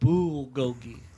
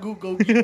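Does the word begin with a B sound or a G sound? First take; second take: B; G. First: The word begins with a B sound. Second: The word begins with a G sound. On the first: The speaker calls it right. "It's bulgogi with a B" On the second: The speaker calls it wrong. "Can I have Gugolgi"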